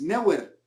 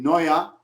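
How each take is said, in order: First: The name is pronounced the Spanish way. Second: The name is pronounced the German way. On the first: "cuando es Neuer" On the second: "por qué pronuncias eh, Noia"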